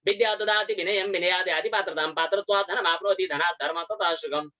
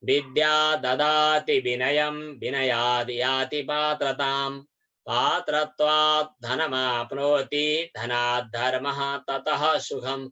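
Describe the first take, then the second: First: The verse is recited at a fast pace. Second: The verse is recited at a moderate pace.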